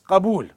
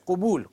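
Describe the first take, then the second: First: The first vowel is an open 'a'. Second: The first vowel is a rounded 'u'. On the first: It means acceptance. The speaker calls it right. "Qabul with a fatha" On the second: It means something else, not acceptance. The speaker calls it wrong. "don't say qubul as everybody says"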